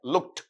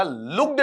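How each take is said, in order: First: लुक्ड ending in a crisp "t" sound; correct voiceless ending. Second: लुक्ड ending in a voiced "d"; wrong voiced ending. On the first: Teacher correcting students, लुक्ड with final "t". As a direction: say लुक्ड softly as "lukt". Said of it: "आपका टे बोलेगा". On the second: Teacher showing the common mistake, लुक्ड with final "d". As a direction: say लुक्ड as "lukd". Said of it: "लुक्ड नहीं होता है". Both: Shown as a demonstration.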